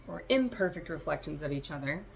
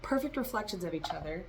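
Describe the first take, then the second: First: "imperfect" stressed on its first syllable, IM. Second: Said in the usual way. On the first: Real, not acted. Correcting perfect reflections, contrastive stress on the "im" of "imperfect". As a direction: lean on the "im" of "imperfect".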